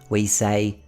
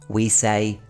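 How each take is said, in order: The two takes are said the same way.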